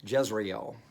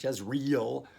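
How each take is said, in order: First: Jezreel with the final vowels kept apart; corrected pronunciation. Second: Jezreel with the ending merged into one REEL; anglicised mispronunciation. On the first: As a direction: say Jezreel in three syllables, jez-ree-EL. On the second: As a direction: say Jezreel in two syllables, jez-REEL. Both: Shown as a demonstration. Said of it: "Not Jezreel".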